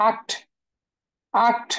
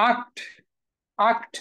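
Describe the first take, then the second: Both takes have the same delivery.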